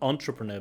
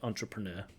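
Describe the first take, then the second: First: The stress falls before the last syllable. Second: The stress falls on the last syllable. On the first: The speaker calls it wrong. "just a wrong word stress there. Not entrepreneur" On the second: The speaker calls it right. "Stress on the last syllable"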